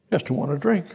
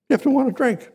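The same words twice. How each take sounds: First: Said in the usual way. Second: You punched high, then falling; stress on You. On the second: Shown as a demonstration. Preacher pressing the congregation, You hit high and hard. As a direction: lift the word You and drive it home.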